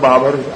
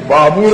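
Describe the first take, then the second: First: The second vowel is a short 'a' sound. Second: The second vowel is a long 'oo' sound. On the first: "आम्ही आपलं बाबर ऐकून आहे" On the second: "त्याचा उच्चार बाबूर आहे म्हणतात"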